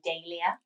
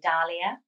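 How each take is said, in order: First: The name is said the usual British way. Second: The first syllable sounds like the surname Dahl. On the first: "In the UK, we normally would say Dahlia" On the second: "So in Sweden, they would say Dahlia"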